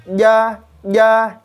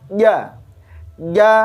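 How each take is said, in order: The two takes are said the same way.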